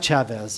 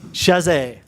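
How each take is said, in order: First: The name starts with a ch sound. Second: The name starts with a sh sound. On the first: The speaker calls it wrong. "It's not Chavez" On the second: The speaker calls it right. "That even sounds better"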